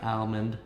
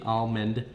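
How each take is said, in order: First: "almond" with a flat A as in cat: AL-mund; wrong-way "almond". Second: "almond" slowly, with a clear L: AHL-mind; deliberate "almond". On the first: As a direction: say "almond" starting like Al, the name. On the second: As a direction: sound the L in "almond" after an open AH. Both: Shown as a demonstration. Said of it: "not almond".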